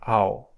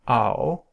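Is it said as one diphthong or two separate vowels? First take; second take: one diphthong; one diphthong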